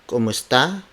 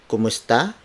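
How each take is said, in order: The two takes are said the same way.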